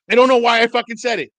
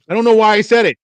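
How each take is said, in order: First: High, loud comic outburst; exasperated swearing. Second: Loud, high-pitched self-reproach; exasperated outburst. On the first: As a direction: yell it, leaning on the swear word. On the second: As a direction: blurt it out, baffled at yourself. Exasperated at own retold blunder. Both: Retold or imitated.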